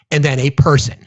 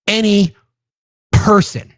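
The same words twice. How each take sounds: First: Said in the usual way. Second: "Any" and "person" each set apart, pitched high; stress on ANY PERSON. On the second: Real, not acted. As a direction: pause before "person", then hit it high. Emphatic repeat of person.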